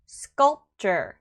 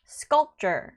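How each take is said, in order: First: The p only stops the air, unreleased. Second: The same.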